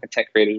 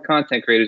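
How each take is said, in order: First: The stress is on the second syllable of content. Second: The stress is on the first syllable of content. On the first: Creators who feel satisfied and at peace. "Same word, different enunciation" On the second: People who produce media to share. "Same word, different enunciation"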